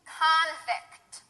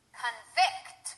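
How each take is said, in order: First: The stress is on the first syllable. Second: The stress is on the second syllable. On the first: It is used as a noun. "The first one will be stressed on the first syllable, that's the noun" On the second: It is used as a verb. "The second one will be stressed on the second syllable, that's the verb"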